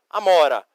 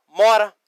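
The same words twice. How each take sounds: First: "amora" with its opening "a" sounded; Portuguese word. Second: "mora" with no opening "a", louder; Spanish word. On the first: Teacher contrasts blackberry for students, Portuguese "amora". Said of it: "amora em português". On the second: Teacher contrasts blackberry for students, Spanish "mora". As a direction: say "mora" firmly, starting straight on the m. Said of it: "Tira apenas o A". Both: Shown as a demonstration.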